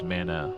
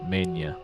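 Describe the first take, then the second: First: The word is said with two syllables. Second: The word is said with three syllables. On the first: This is the usual pronunciation. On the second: Someone else said it this way, perhaps to annoy.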